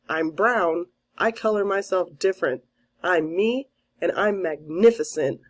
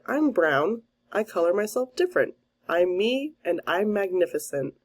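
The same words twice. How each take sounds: First: It is said at a louder volume. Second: It is said at a softer volume.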